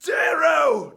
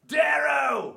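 First: High, very loud shout; calling out. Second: High, loud goblin shout. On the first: Recording Severo's call to Darrow, high loud shout. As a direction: holler the name. Recording a called-out character line. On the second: Severo calling Darrow as asked, goblin-y shout. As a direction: holler it like a little goblin. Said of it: "Goblin-y, like you did the first time". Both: Acted.

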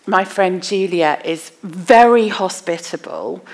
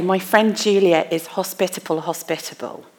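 First: Said in the usual way. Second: Hebrew-style emphasis by repeating "hospitable"; repeated for emphasis. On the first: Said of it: "So if I wanted to say". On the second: Shown as a demonstration. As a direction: say "hospitable" twice to stress it. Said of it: "So you use repetition for emphasis".

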